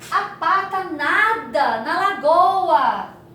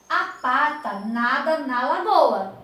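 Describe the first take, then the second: First: It is said with exaggerated, exclaiming emphasis. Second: It is said as a plain, calm statement.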